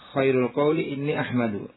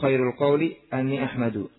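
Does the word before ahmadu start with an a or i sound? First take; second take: i sound; a sound. First: The word before ahmadu starts with an i sound. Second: The word before ahmadu starts with an a sound. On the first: The predicate is a full clause. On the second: The predicate is read as a single noun.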